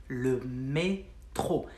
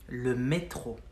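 First: "le métro" stretched, mé held long before tro; slowed repeat. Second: Said in the usual way. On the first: Shown as a demonstration. Teacher repeating the word for subway to learners, slow and split. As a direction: draw out "le métro" in separate syllables.

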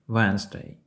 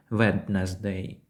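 First: "Wednesday" as WENZ-day, no first D; correct pronunciation. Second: "Wednesday" as WED-nez-day, D sounded; wrong pronunciation. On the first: Teacher models it as if saying when, silent D. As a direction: say "Wednesday" starting like when, two syllables. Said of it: "Як ніби ви говорите". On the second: Teacher shows learners what to avoid, spelled-out pronunciation. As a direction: say "Wednesday" in three syllables, voicing every letter. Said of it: "Ми не говоримо як". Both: Shown as a demonstration.

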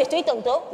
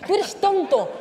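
First: Said in the usual way. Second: Higher, emphatic "Tú eres tonto" with hard t sounds; marked consonants. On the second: Shown as a demonstration. Coach acting an insult, "Tú eres tonto" with marked consonants. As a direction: hit each t in "Tú eres tonto". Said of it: "y marcas las consonantes".

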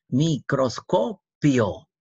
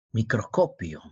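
First: Slow "Microscopio", mi-cros-co-pio with gaps; syllable by syllable. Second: Said in the usual way. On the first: Shown as a demonstration. Teacher locating the final diphthong, "Microscopio" slowly by syllables. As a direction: stretch "Microscopio" into separate beats.

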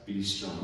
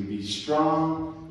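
First: "be strong" said softer and lower. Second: Said in the usual way. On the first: Shown as a demonstration. Angel to Daniel, "be strong" softly. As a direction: ease "be strong" down gently. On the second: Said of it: "Yes, be strong".

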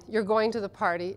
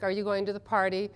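First: "You're going to the party" with a falling statement tune; statement intonation. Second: Rising question tune on "Are you going to the party?"; question intonation. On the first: Teaching translators, a falling statement tune. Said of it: "It's just the emphasis, the tonality". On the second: Teaching translators, a rising question tune. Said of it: "if you say something like". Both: Shown as a demonstration.

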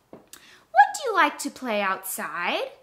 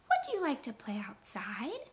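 First: Said in the usual way. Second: Whispered, rising at the end; whispered question. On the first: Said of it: "If I say it with a question". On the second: Shown as a demonstration. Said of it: "ask it with a question".

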